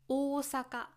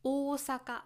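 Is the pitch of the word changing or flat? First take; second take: flat; flat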